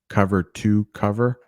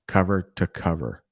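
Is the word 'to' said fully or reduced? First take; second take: fully; reduced. First: The word 'to' is said fully, like 'too'. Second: The word 'to' is reduced to a weak 'tuh'. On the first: The speaker calls it wrong. "I'm not saying to" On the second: The speaker calls it right. "I'm saying to"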